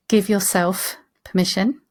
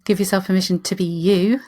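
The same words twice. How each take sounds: First: Slow, with emphasis on "yourself"; stress on YOURSELF. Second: Emphasis landing on the final "you"; stress on YOU. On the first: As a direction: lean on the word "yourself", unhurried. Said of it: "emphasis on the yourself". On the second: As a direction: save the emphasis for "you" at the end. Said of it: "emphasis on the you". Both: Shown as a demonstration.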